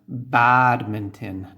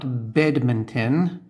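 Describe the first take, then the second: First: The first vowel sounds like 'ah'. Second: The first vowel sounds like 'eh'. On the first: The speaker calls it right. "for example, badminton" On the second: The speaker calls it wrong. "not bedminton"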